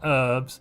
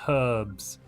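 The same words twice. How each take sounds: First: The h at the start is silent. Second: The h at the start is pronounced. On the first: The speaker calls it wrong. "not herbs" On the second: The speaker calls it right. "Why would an H ever be silent?"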